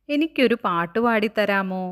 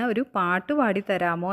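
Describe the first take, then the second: First: Louder, lightly acted childlike asking; childlike request. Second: Said in the usual way. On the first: Kite asking the wind for a song, eager. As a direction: ask eagerly for a song, voice raised.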